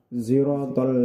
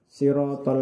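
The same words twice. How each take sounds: First: It begins with an s blended with z. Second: It begins with a plain s sound. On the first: "ismam, gabungan antara shad dengan za" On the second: "mengganti huruf shad dengan huruf sin"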